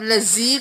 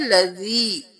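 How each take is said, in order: First: The middle consonant is a harsh buzzing z. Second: The middle consonant is a soft tongue-between-teeth sound. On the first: The speaker calls it wrong. "जा सख्ती से हो जाएगा" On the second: The speaker calls it right. "नरमी से अदा करना है"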